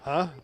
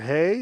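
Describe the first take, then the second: First: The name is said like 'huh'. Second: The name is said like 'hey'. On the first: "How do you say this last name" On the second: "would it be hey?"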